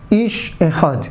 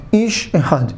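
The two takes are said the same way.

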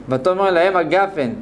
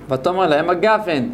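Both takes have the same delivery.

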